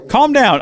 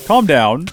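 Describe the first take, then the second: First: Panicked plea. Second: Said in the usual way. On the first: Acted. Pleading with angry burning horse.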